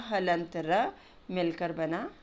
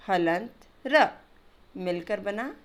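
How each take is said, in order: Both takes have the same delivery.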